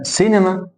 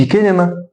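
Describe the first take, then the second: First: سينما begun with an s sound. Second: كينما begun with a k sound; mistaken hard C. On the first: Teacher giving an example word, C said as S. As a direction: start سينما on s, never k. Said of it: "كنا بننطق السي سي". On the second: Teacher showing what not to say, C as K. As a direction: start كينما on k in place of s. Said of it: "ما اقولش كينما". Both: Shown as a demonstration.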